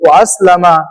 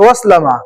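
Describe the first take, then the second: First: The glottal stop before aslama is clearly pronounced. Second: The words are run together without a glottal stop. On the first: The speaker calls it right. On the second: The speaker calls it wrong.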